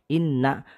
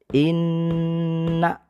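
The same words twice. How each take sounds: First: The double n is said short and quick. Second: The double n is held for three beats. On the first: The speaker calls it wrong. "Jadi tidak boleh" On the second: The speaker calls it right. "ditekan dan ditahan ya sebanyak tiga ketukan"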